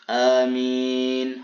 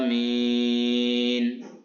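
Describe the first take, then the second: First: The first vowel is short; the vowel after m is long. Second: The first vowel is long and m is single. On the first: "hamzahnya dibaca pendek dan mimnya dibaca panjang tanpa syiddah" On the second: "dengan panjang hamzahnya adalah amin, tidak mentasydidkan huruf mimnya"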